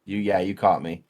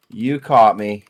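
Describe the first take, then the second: First: Said in the usual way. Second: A louder, emphatic admission. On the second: Real, not acted. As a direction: say it louder, owning up.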